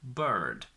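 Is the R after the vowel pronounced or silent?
pronounced. The R after the vowel is pronounced.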